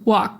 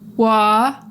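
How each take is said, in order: First: The air is cut off sharply at the end. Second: The vowel fades out with no sharp stop. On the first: The speaker calls it right. "we cut off the air in an abrupt way" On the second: The speaker calls it wrong. "it's not wah that just kind of fades out"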